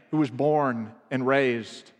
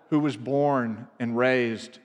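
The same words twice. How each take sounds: The two takes are said the same way.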